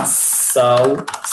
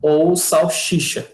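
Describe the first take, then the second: First: Salsicha drawn out very slowly with a clear s; correct form. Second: Salchicha with sh sound, slow; wrong form. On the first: Teacher stressing salsicha with an S. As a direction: stretch sal-si-cha, crisp s. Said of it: "Com S". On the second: Teacher voicing the wrong salchicha. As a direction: draw out salchicha mockingly. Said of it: "Salsicha é triste". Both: Shown as a demonstration.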